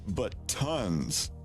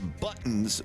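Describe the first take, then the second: First: A full gap separates the two syllables. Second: The word flows with no break between syllables. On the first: "That would be a space" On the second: "we say buttons"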